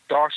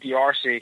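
First: The name is said as one syllable. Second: The name is said as two syllables.

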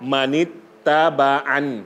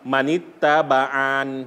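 First: The final vowel is cut short. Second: The final vowel is drawn out long. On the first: The speaker calls it right. "ต้องหยุดให้สั้นเลย" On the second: The speaker calls it wrong. "ถ้าลากเสียงยาว"

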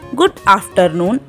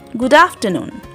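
First: The vowel in good is full. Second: The vowel in good is light. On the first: The speaker calls it wrong. "We don't say good afternoon" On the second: The speaker calls it right. "We are using the slight U here"

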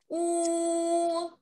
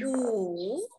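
First: The pitch stays high and level. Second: The pitch dips down, then rises. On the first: "读一声的时候要高高的、平平的来读" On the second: "三声是先下来再上去，五，是这样读的啊"

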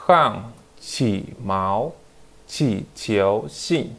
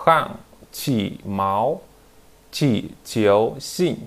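No difference in how they are said.

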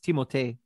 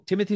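First: The name is said in a French way. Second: The name is said in an English way. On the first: The speaker calls it right. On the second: The speaker calls it wrong.

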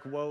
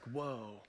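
First: It sounds like a warning to slow down. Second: It sounds amazed and impressed.

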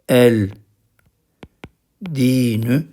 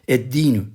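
First: The l of the article is clearly pronounced. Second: The l blends into a doubled d sound. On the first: The speaker calls it wrong. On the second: The speaker calls it right.

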